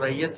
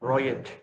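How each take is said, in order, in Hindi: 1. शब्द की शुरुआत 'rai' की आवाज़ से होती है। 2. शब्द की शुरुआत 'roy' की आवाज़ से होती है। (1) "एक्चुअल जो वर्ड है वो आर ए आई टी ही है" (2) "वो ब्रिटिश प्रोनाउंसिएशन है"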